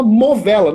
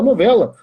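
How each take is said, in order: First: "novela" said with M first, as "movela"; childish mispronunciation. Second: Said in the usual way. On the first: Retold or imitated. Imitating a little sister's slip, "novela" as "movela". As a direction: swap the N of "novela" for an M. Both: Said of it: "Não tinha quem fizesse ela falar novela".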